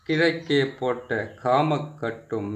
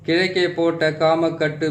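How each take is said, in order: First: The phrase is spoken slowly and deliberately. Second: The phrase is spoken quickly. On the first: "பொறுமையா சொல்றேன்" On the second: "இந்த மந்திரத்தை வந்து கொஞ்சம் வேகமாக சொல்லிடுறேன்"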